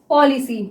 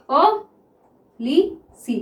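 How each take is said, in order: First: Said in the usual way. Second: "policy" very slowly in three separate syllables. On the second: Shown as a demonstration. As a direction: dictate "policy" with pauses after "पॉ" and "लि". Sounds out word while writing.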